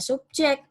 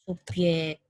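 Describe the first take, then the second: First: The middle consonant is a j sound. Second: The middle consonant is a y sound. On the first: The speaker calls it right. "dibaca subjek" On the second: The speaker calls it wrong. "Jangan Anda menggantinya dengan subjek"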